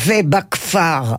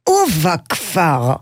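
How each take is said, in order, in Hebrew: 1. המילה מתחילה בהברה 've'. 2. המילה מתחילה בתנועה 'u'. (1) "כי אצלנו לא אומרים ובכפר" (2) "אלא אומרים ובכפר"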